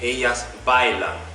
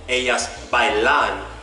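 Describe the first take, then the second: First: The stress falls on the first syllable of bailan. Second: The stress falls on the last syllable of bailan. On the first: The speaker calls it right. "the stress of the word is at the second to last syllable" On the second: The speaker calls it wrong. "I'm not saying ellas bailan"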